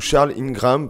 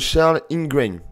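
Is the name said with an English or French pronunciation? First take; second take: French; English. First: The name is said with a French pronunciation. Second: The name is said with an English pronunciation.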